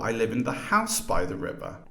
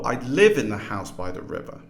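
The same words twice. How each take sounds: First: The main stress is on house. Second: The main stress is on live.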